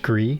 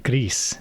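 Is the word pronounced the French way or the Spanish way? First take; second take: French; Spanish. First: The word is said with a French pronunciation. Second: The word is said with a Spanish pronunciation. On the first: The speaker calls it wrong. "which I always thought it was Gris, like French gris" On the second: The speaker calls it right. "So if it's Spanish, then it should be Gris"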